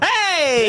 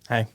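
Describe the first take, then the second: First: It is said with high energy. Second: It is said with low energy.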